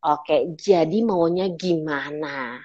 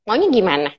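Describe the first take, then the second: First: Low, soft, very slow challenge; soft warrior. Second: Confrontational question at normal pitch; warrior tone. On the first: Coach to someone going in circles, soft warrior. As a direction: confront gently, drawing each word out slowly. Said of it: "saya pakai soft warrior". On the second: Trainer challenging someone to say what they want, warrior tone. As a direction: challenge them as if ready to fight. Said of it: "Nah, itu warrior". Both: Shown as a demonstration.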